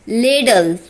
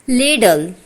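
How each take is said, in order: Both takes have the same delivery.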